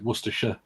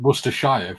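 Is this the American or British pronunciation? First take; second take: British; American. First: It is shortened, with the middle syllables reduced. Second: Every letter is pronounced, the full spelled-out way. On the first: "we pronounce it Worcestershire" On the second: "rather than pronouncing it Worcestershire"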